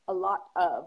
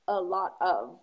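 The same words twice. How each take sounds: First: The phrase is said fully, with 'of' pronounced. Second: The phrase is said fully, with 'of' pronounced.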